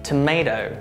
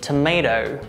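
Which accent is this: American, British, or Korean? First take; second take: American; American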